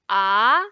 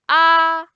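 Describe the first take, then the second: First: The pitch rises from mid to high. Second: The pitch stays high and level. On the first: "second tone is going up" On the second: "the first one is flat. ... It's flat and high"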